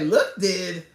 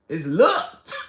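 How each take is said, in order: First: The word has an extra second syllable. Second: The word is a single syllable. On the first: The speaker calls it wrong. "I'm like" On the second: The speaker calls it right.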